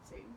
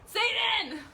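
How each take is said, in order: First: It is said quietly. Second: It is said loudly.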